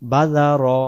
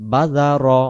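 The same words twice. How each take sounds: Both takes have the same delivery.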